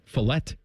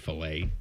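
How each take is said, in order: First: The final T is clearly pronounced. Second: The final T is silent. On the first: "the British people just pronounce the T" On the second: "You just say filet"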